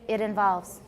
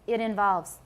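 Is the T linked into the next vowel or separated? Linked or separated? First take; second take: linked; linked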